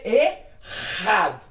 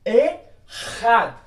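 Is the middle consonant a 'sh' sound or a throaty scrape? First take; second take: throaty scrape; throaty scrape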